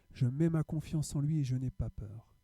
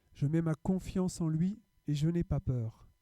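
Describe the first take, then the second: The two takes are said the same way.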